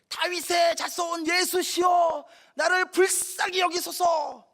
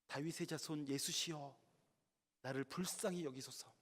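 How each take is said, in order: First: It is shouted with all possible force. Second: It is called out at a normal volume.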